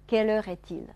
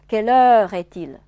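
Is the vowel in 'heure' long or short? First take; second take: short; long. First: The vowel in heure is short and even. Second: The vowel in heure is held long. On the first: The speaker calls it right. "而是要读成quelle heure est-il 啊，每个音节平均分配就可以了" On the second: The speaker calls it wrong. "所以我们没不必要把它读成quelle heure est-il"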